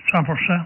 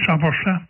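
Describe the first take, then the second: No difference in how they are said.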